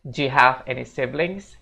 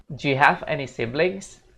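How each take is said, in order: First: Slow, "Do you" as "ju"; careful reduced take; slower reduced do you. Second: "Do you" squeezed into one syllable "ju"; casual native reduction; reduced do you. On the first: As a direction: repeat slowly with "ju". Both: Shown as a demonstration. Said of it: "Jadinya kayak gini".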